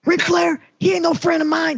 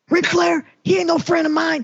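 First: It is said in an imitated, put-on voice. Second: The same.

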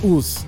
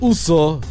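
First: The word is cut short after one syllable. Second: The word is said with both syllables. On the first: The speaker calls it wrong. "where you just, you know, chop it" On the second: The speaker calls it right. "which is how you really say it"

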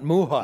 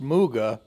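First: The middle consonant is not a G sound. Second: The middle consonant is a hard G sound. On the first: The speaker calls it wrong. "It is not Muja" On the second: The speaker calls it right. "is pronounced Muga"

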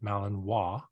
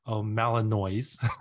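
First: The word has a French pronunciation. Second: The word has a non-French pronunciation. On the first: The speaker calls it right. "in French, you say Malinois" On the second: The speaker calls it wrong. "A lot of people videos that say Malinois, which is not Malinois"

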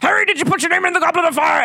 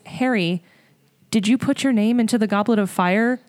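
First: The line is said angrily and forcefully. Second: The line is said calmly and quietly.

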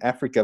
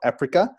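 First: The word is said with its usual sounds. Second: The word is said with one altered consonant. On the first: The real-world name for the continent. "instead of calling it Africa" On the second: A changed name marking an alternate world. "they call it Africa. And I initially thought someone had a lisp"

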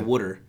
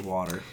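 First: Water is said with a Philadelphia accent. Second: Water is said with a non-Philadelphia accent. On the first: The speaker's home region says it this way. "I think it's a Philly thing where we say water" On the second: Many other regions say it this way. "a lot of other places will say water"

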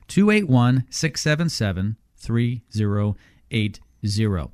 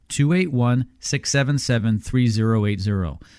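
First: It is read slowly. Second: It is read at a normal pace.

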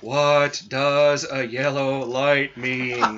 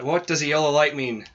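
First: It is said very slowly. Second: It is said at normal speed.

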